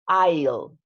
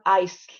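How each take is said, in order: First: The word is said without an S sound. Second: The word is said with an S sound. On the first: The speaker calls it right. "The S is not pronounced" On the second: The speaker calls it wrong. "it's not ice"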